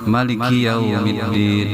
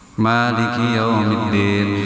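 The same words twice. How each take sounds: First: The first vowel of Maliki is kept short. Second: The first vowel of Maliki is drawn out long.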